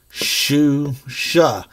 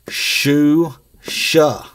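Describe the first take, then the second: No difference in how they are said.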